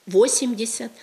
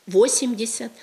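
First: The stress falls where Russian puts it. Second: The stress falls where Russian puts it.

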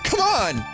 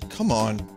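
First: It is said loudly, with urgent energy. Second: It is said flatly, with little energy.

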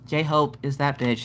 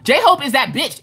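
First: It is said flat and unenthusiastic. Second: It is said with excited, hyped energy.

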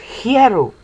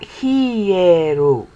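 First: The word is said without a Japanese-like sound. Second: The word is said with a Japanese-like sound. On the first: The speaker calls it right. "So it's hieru" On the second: The speaker calls it wrong. "not hieru, which sounds sort of Japanese"

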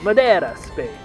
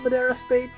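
First: It is said in an Italian-vampire style accent. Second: It is said in a plain, ordinary accent. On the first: The speaker calls it right. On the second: The speaker calls it wrong.

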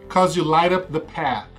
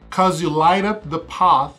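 First: The vowel in path does not sound like stars. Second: The vowel in path sounds like in stars. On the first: "em inglês americano" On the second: "O inglês britânico é path, que rima mais com stars"

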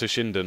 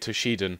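First: It is said with an n before the d. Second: It is said without an n before the d. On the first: "but I think it's Toshinden" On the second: "I don't know if you pronounce the N or not, but I say Toshiden"

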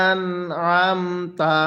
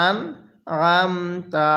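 No difference in how they are said.

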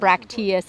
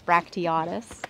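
First: The word ends in a short '-teus' ending. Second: The word ends in a longer '-teatus' ending. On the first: The speaker calls it wrong. "I've been saying it wrong all this time. It's not bracteus" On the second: The speaker calls it right. "it's bracteatus"

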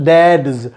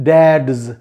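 First: It is contracted into one syllable ending in s. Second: It is contracted into one syllable ending in s.

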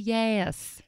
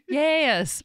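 First: It is said in a plain accent. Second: It is said in a Southern American accent.

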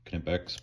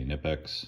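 First: The word starts with a k sound before n. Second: The word starts with an n sound, no k. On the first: The speaker calls it right. "I've been told the proper pronunciation is Knipex" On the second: The speaker calls it wrong. "Some people say Nipex"

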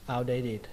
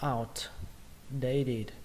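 First: The word is said fast as one unit. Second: The word is said slowly in separate parts.

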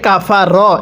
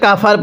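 First: The final consonant carries a following vowel. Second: The word stops on a bare final consonant. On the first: The reciter continues into the next word. "যদি মিলিয়ে পড়ি তাহলে কাফা র এরকমভাবে পড়তে হবে" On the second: The reciter pauses at this word. "এখানে ওয়াকফ করলে কাফার পড়তে হবে"

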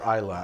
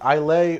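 First: The name is said the local way. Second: The name is said the American way. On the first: "but in fact it is Isla" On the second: "I think in the US it's okay to say Islay"

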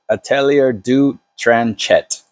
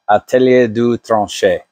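First: The name is said with English pronunciation. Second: The name is said with French pronunciation. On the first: The speaker calls it wrong. "in English writing looks like" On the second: The speaker calls it right. "in my best French pronunciation"

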